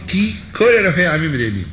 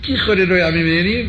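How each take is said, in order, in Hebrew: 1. יש הפסקה קצרה בין ki ל-kol. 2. Ki ו-kol נשמעות ביחד, בלי הפסקה. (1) "כל, אז זה כבר פסקת" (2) "אם תגיד כיכול, אז אתה ממהר"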